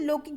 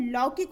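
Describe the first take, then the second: First: लौकिक with close "o", as lokik; mispronounced लौकिक. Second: लौकिक with open "au", as laukik; correct लौकिक. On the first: Teacher rejects the wrong form, लौकिक said as lokik. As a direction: round the first vowel of लौकिक to o. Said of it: "जैसा कोई शब्द नहीं होता". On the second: Teacher gives the right word, लौकिक as laukik. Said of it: "क्या होता है". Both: Shown as a demonstration.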